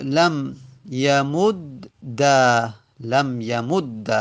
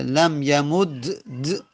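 First: Slow "لم یمد د" with doubled d opening into "da"; final fatha. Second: "لم یمد د" drawn out, ending on two bare d's; unworkable double consonant. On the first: Teacher showing the fix, "یمد د" said yamud-da with final fatha. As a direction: end "لم یمد د" on a held a after double d. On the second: Teacher showing it cannot be read, "یمد د" with no final vowel. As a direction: get stuck on the vowelless d-d of "لم یمد د". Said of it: "باز نمیشه". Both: Shown as a demonstration.

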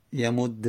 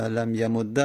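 First: یمود read slowly "yamudde"; slow یمود with doubled d ending in e; kasra ending. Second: لم یمود read "lam yamudda"; fatha ending. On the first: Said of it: "و کسره دادیم که". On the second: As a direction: end لم یمود on doubled d and short a. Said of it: "فتحه دادیم". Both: Shown as a demonstration.

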